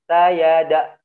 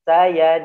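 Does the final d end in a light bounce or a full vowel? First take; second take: full vowel; bounce. First: The final d is followed by a full vowel. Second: The final d ends in a light bounce. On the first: The speaker calls it wrong. "tidak boleh sayada" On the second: The speaker calls it right. "qalqalah ya"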